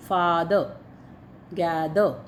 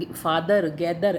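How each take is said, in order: First: "father, gather" with the final r swallowed, tongue curled back. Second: "father, gather" ending in a clear Hindi रर tap; wrong hard r. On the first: Teacher shows the English r sound correctly. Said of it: "उसको जीभ को घुमा, घुमा लेंगे पूरा अंदर ही". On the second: Teacher shows how not to say the words. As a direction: say "gather" with a hard rolled r at the end. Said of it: "ऐसे नहीं पढ़ना उसको". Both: Shown as a demonstration.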